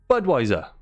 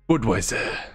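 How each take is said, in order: First: It is said in an American accent. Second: It is said in a non-American accent. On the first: The speaker calls it right. "it's American" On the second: The speaker calls it wrong. "Don't know why I said it in that accent"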